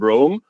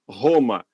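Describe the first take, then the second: First: The first sound is an English R. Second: The first sound is a breathy H-like sound. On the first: The speaker calls it right. "a palavra em inglês que nós utilizamos para designar a capital da Itália" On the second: The speaker calls it wrong. "com esse R que a gente fala no português"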